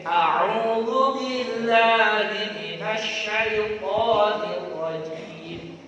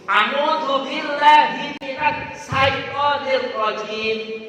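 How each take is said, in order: First: It is recited carefully, following the recitation rules. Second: It is recited sloppily, ignoring the recitation rules. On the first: The speaker calls it right. "kita berusaha membaca dengan baik" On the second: The speaker calls it wrong. "bayangkan kita baca Al-Quran itu ngawur"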